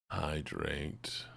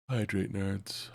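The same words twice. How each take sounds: First: Said in the usual way. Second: "Hydrate" stretched slowly and pitched up; slow, higher drawn-out reminder. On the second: Shown as a demonstration. Streamer teasing chat to drink water, slow and higher. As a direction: drag out "Hydrate, nerds" like a teasing nag.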